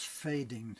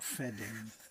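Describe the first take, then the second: First: The first vowel is a long 'ay' sound. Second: The first vowel is a short 'eh' sound. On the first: The speaker calls it right. "That's fading, honey" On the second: The speaker calls it wrong. "not fedding"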